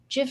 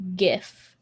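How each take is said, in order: First: The word starts with a soft G sound. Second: The word starts with a hard G sound. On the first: The speaker calls it right. "GIF is so smooth" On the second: The speaker calls it wrong. "it's so harsh when it's a hard G"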